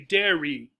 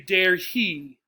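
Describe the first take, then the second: First: The H is dropped, linking into 'dairy'. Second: The H in 'he' is clearly pronounced. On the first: "if we're speaking quickly ... dropping the H" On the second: "So we might say dare he"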